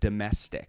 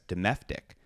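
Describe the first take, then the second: First: The middle consonant is said as an S. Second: The middle consonant is said as an F. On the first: The speaker calls it right. "you pronounce it domestic" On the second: The speaker calls it wrong. "think it says domestic"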